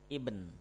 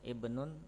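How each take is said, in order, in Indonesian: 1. Kata itu berakhir dengan konsonan akhir tanpa bunyi tambahan. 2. Kata itu berakhir dengan bunyi -un yang ditambahkan.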